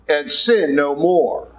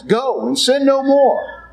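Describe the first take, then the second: First: Slow quoted command. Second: Slow, high, solemn go and sin no more; solemn command. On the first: Jesus speaking to the woman, slow and gentle. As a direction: let it fall gently. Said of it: "He said". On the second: Preacher quoting Jesus to the woman, slow and solemn. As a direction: lift it up slowly like a verdict. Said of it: "that's what Jesus says". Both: Acted.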